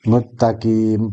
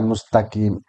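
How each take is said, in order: First: The middle has a doubled 't' sound. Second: The middle has an 's' sound before 't'. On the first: The speaker calls it wrong. "mustaqim dibaca muttaqim" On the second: The speaker calls it right. "bukan mustaqim"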